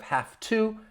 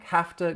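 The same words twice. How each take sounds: First: Both words are said fully and clearly. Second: The words blend into a reduced 'hafta'. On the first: "Instead of have to" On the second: "it's going to sound like have to"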